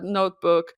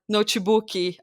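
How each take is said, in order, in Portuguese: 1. Ela é pronunciada com sotaque nativo do inglês. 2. Ela é pronunciada com sotaque do português brasileiro. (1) "ao invés de falar notebook" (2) "falar notebook"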